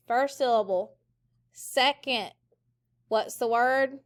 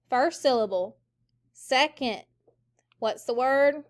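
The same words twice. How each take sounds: The two takes are said the same way.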